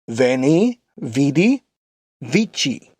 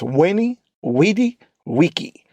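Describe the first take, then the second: First: The words begin with a V sound. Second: The words begin with a W sound. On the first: This is the ecclesiastical Latin pronunciation. "The ecclesiastical is" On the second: This is the classical Latin pronunciation. "That is the classical"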